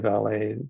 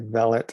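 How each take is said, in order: First: It is said with an American pronunciation. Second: It is said with a British pronunciation. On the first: "we say valet" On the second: "Brits would say valet"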